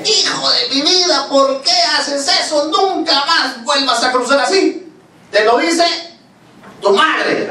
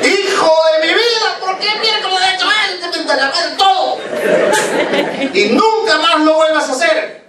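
First: Shouting mother. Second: Very high-pitched, frantic scolding; screaming mother. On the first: Mother forbidding her child to cross like that, high-pitched shouted scolding. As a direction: scold at a high pitch, stretching each phrase slowly. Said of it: "Cuando le gritó". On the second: Mother to the son who ran across the street, screaming scold. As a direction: shriek it like an enraged mum, pitch way up. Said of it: "Gritó". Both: Acted.

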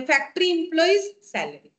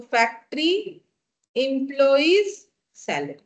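First: Said in the usual way. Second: Word by word, long pauses between; spaced out for note-takers; slow dictation. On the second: Real, not acted. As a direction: dictate "factory", "employees", "salary" one at a time. Dictates item for students to write.

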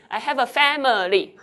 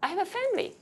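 First: Loud, measured sentence with "family" as FAM-I-LY; over-enunciated "family", middle vowel kept; three-syllable family. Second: Higher, casual sentence with "family" as FAM-ly; everyday two-syllable "family"; shortened family. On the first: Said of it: "it's three syllables". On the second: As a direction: drop the middle vowel of "family". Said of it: "Again, you shorten it". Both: Shown as a demonstration.

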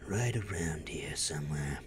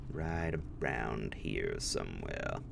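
First: Hushed secretive whisper. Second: Said in the usual way. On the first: Shown as a demonstration. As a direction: breathe it like sneaking around. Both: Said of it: "repeated in whisper".

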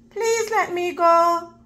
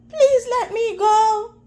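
First: Begging. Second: High, tearful plea for mercy; pleading cry. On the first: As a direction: ask gently to be let go. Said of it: "Mouse begged". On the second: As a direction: cry out, begging to be let go. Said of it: "Mouse cried". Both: Acted.

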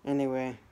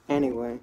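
First: Said in the usual way. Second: Firm, louder anyway. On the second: Real, not acted. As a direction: punch out anyway. Louder repeat of same filler.

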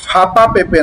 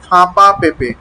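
First: "ফাঁপা পেঁপে" with purely oral vowels; de-nasalised "ফাঁপা পেঁপে"; missing nasality. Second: "ফাঁপা পেঁপে" with vowels sent through the nose; clearly nasal "ফাঁপা পেঁপে". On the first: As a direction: show the slip, no nose sound in "ফাঁপা পেঁপে". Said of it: "ফাঁপা পেঁপে নয়". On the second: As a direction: model "ফাঁপা পেঁপে", nasalising the first vowel of each word. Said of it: "ফা, ফা নাক থেকে". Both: Shown as a demonstration.

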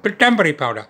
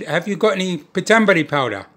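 First: "Pitambari powder" in a light put-on Indian accent. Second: Said in the usual way. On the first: Asking the Indian grocer for "Pitambari powder" in a light Indian accent. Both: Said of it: "Put on a bit of an accent".

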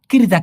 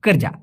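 First: কিরজা said with an i in the first syllable, the wrong way; wrong pronunciation. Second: কারজা said with an open a in the first syllable; correct pronunciation. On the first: Teacher to learners, showing the wrong vowel in কিরজা. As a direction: demonstrate the mistaken কিরজা, i as in kit. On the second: Teacher to learners, modelling the correct vowel in কারজা. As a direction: give the right কারজা, first vowel a as in father. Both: Shown as a demonstration. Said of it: "কিরজা কিন্তু না".

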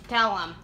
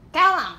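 First: Said in the usual way. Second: Higher, louder tell 'em; louder demand. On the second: Acted. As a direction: push tell 'em out with force. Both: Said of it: "What do you name me?".

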